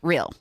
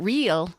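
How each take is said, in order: First: The vowel is clipped short. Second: The vowel is drawn out fully. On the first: "we chop, we like actually squish them and make them less" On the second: "It's not real"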